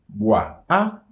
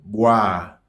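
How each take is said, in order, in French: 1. L'article se prononce à part. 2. L'article se fond dans la voyelle finale du nom. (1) "nous pas dire" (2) "mais nous dit"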